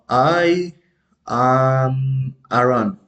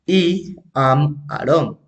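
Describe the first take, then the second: First: It is pronounced the English way. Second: It is pronounced the Spanish-style way. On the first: The speaker calls it right. "In the pronunciation in English, we have, for example" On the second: The speaker calls it wrong. "I don't say"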